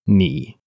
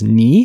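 First: The syllable is said with a fairly flat tone. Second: The syllable is said with a rising tone. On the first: "when it's said by itself, ni, notice the tone is a little bit flat" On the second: "when it's together with hao, it becomes ni hao, it goes up"

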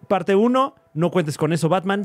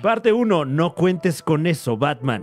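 First: It is said at normal speed. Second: It is said slowly, in slow motion.

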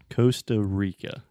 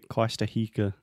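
First: It is said with a schwa and American R. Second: It is said with Portuguese-style vowels and R. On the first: The speaker calls it right. "The way we say it is Costa Rica" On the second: The speaker calls it wrong. "if you say Costa Rica, ninguém vai te entender"

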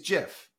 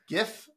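First: It begins with a soft G sound. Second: It begins with a hard G sound. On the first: "Like Jiffy Lube is GIF" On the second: "Gift, GIF"

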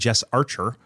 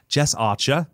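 First: The name is said in an American accent. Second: The name is said in an Australian accent.

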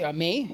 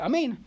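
First: The word ends without an 'n' sound. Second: The word ends with an 'n' sound. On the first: The speaker calls it wrong. "It's missing the nun, which would be amay. Don't say amay" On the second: The speaker calls it right. "You should say amen"

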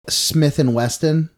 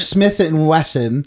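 First: Wesson is said with a T sound. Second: Wesson is said without a T sound. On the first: The speaker calls it wrong. "people always say Smith & Wesson" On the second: The speaker calls it right. "It's Smith and Wesson"

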